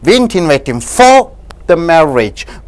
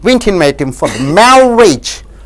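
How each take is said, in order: First: The stress falls on the word for. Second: The stress falls on the word marriage. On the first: He was invited for some other occasion. "Suppose if you stress on for" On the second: He was invited to another function, not a marriage. "Suppose if you invite on the marriage"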